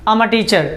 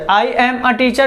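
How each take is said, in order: First: I am is contracted into one syllable. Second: I am is said as two separate words. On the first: "लेकिन बेहतर क्या है, अच्छा क्या है" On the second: "आई एम a teacher भी सही है"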